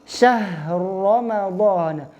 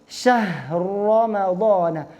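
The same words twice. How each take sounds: No difference in how they are said.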